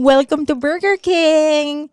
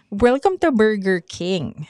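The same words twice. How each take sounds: First: "Welcome to Burger King" with a long drawn-out "King"; slow, affected greeting, drawing out "King"; stretched King. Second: Said in the usual way. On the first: Retold or imitated. Mimicking her old Burger King greeting, drawing out "King". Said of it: "Yung mahaba yung King". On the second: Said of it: "Tapos sabi niya".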